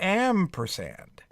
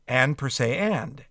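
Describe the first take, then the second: First: The syllables are run together into one word. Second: Each syllable is said clearly and separately.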